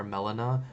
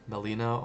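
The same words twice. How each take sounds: First: "melena" as MEL-uh-nuh; alternate pronunciation. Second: "melena" as muh-LEE-nuh; alternate pronunciation. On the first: Teacher gives nursing students the other way to say it, alternate pronunciation. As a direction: stress the first syllable of "melena", with a short e. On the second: Teacher gives nursing students one way to say it, alternate pronunciation. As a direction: stress the middle of "melena", with a long ee. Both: Shown as a demonstration. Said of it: "depending on how you pronounce it".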